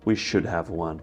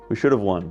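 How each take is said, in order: First: The word 'have' is said fully and clearly. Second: The word 'have' shrinks to a small v sound. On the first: It sounds painfully formal. The speaker calls it wrong. "most English speakers would never say" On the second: It sounds like normal spoken English. The speaker calls it right. "all you need is that little v to hear the have"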